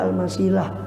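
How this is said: The name ends in an 'ah' sound. This is how the name is written. "Kalau tulisannya Al-Masilah"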